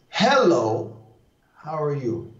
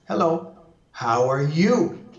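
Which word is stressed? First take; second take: Hello; you. First: The first word carries the strong stress. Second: The last word carries the strong stress. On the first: "That's accentuating the one" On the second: "I'm now going to accentuate the last one"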